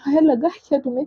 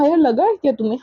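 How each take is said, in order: First: Same question, rushed and fast; asking again faster, worried mother; urgent repeat. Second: Said in the usual way. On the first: Retold or imitated. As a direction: hurry the repeat out anxiously. Asked three times, repeated faster.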